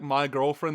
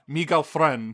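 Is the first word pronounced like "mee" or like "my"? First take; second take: my; mee. First: The first word rhymes with "eye". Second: The first word rhymes with "see". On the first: The speaker calls it wrong. "That's not how you pronounce it in this culture" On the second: The speaker calls it right. "It's the correct pronunciation"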